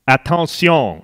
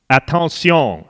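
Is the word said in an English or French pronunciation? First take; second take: French; French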